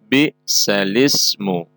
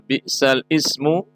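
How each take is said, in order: First: The vowel moves onto the l, with no glottal stop. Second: A glottal stop is heard before 'ismu'. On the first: The vowel is carried over to the letter before it. "maka dinakal menjadi" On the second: This is the original form of the word.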